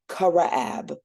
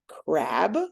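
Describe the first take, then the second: First: An extra vowel separates the first two consonants. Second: The first two consonants are blended with no vowel. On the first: The speaker calls it wrong. "we don't want to go Karaab" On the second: The speaker calls it right. "There are four sounds in crab"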